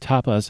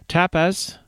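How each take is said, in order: First: The word is said with an American pronunciation. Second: The word is said with a British pronunciation. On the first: "as I would say" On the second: "as he pronounced it, but remember, he's speaking British"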